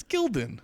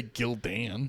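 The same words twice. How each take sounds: First: Gildan as GIL-din, second vowel reduced; Gildan, rhyming with "children"; correct pronunciation. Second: Gildan said as gil-DAN, full "an" as in man; mispronunciation. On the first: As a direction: say Gildan with an unstressed "din" ending. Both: Shown as a demonstration. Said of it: "You don't say Gildan".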